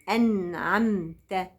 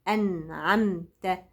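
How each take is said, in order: No difference in how they are said.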